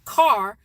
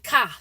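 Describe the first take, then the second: First: It is said in a standard accent. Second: It is said in a Chicago accent. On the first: "it's not car" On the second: "We say car"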